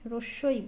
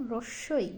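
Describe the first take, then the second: Both takes have the same delivery.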